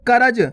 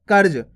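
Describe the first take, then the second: First: करज said as three syllables, ka-ra-ja, full ra; wrong pronunciation. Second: कर्ज said with r and j joined, no vowel between; correct reph pronunciation. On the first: Teacher shows students the wrong sound of करज, a full ra. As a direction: stretch करज into ka ra ja with a full vowel. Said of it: "पूरा रा जाता है इस प्रकार से". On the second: Teacher shows students the right sound of कर्ज, clear and careful. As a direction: say कर्ज clipped as one syllable, kərj. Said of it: "देखो किस प्रकार से इसका उच्चारण हो रहा है". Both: Shown as a demonstration.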